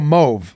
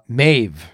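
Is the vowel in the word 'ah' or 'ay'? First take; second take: ah; ay. First: The vowel sounds like 'ah'. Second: The vowel sounds like 'ay', as in 'wave'. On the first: The speaker calls it right. "now the O-A-U is sounded as ah" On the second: The speaker calls it wrong. "It looks like the name Mave"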